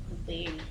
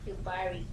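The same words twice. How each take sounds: First: Yuberi with "be" in the middle; Yuberi pronunciation. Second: Yubari with "ba" in the middle; Yubari pronunciation. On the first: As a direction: try out "Yuberi" with an e sound. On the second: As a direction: try out "Yubari" with an a sound. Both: Shown as a demonstration. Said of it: "Is it Yubari or Yuberi?".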